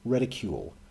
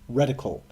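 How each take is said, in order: First: The word ends with a long 'kyool' sound. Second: The word ends with a short 'kul' sound. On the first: The speaker calls it wrong. "My entire life, I've been saying reticule" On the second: The speaker calls it right. "it is apparently pronounced reticle"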